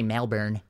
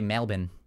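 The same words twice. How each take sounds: First: It is said the American way. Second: It is said the Australian way. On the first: "they don't say Melbourne" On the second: "in Australian, they say Melbourne"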